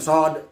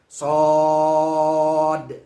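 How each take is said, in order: First: The vowel is cut short with no length. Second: The vowel is held long, ending in a bounce. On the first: The speaker calls it wrong. "jangan cukup apa namanya dipendekkan sod, tidak boleh" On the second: The speaker calls it right. "makanya ada qalqalahnya. Di situ juga panjang"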